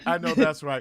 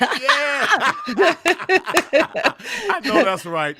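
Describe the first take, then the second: First: Said in the usual way. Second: Loud laugh through the words; laughing agreement, slow and loud. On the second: Real, not acted. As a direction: crack up at the joke. Laughing at OG joke.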